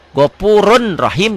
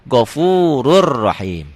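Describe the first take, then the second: First: The n sound is clearly pronounced. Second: The n merges into a doubled r.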